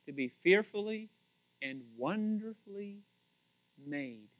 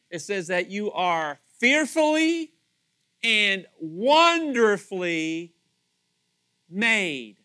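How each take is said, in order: First: Quiet, musing, fading to a hush on made; soft reflection. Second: Slow, loud, stretched wonderfully; emphatic quote. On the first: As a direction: let "wonderfully" sink softly, then trail "made" almost silent. Repeating the verse, reflecting. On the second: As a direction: lean hard on wonderfully, drawn out long. Quoting the psalm with emphasis. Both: Shown as a demonstration.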